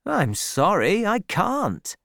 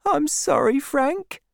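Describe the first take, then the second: First: Lightly voiced sergeant, mildly apologetic; a hint of a soldier's excuse; soldier refusing. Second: Put-on high, meek young woman's voice; high-voiced, contrite sweetheart; apologetic girl. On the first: Troy refuses Fanny, voiced. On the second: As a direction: apologise meekly, pitched way up. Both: A narrator's reading.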